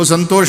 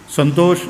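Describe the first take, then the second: First: The 'sh' sound is pushed out with heavy force. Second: The name is said plainly with no extra force. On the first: "वो श के ऊपर ऐसा जोर लगाएंगे" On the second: "अपने सीधे साधे शब्दों में संतोष"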